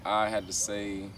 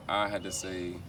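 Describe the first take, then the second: No difference in how they are said.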